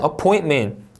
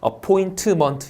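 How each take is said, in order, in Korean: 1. t 소리가 바로 m으로 이어집니다. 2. t 뒤에 모음이 하나 더 붙습니다.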